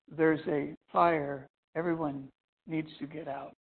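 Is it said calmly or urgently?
calmly. It is said calmly, without urgency.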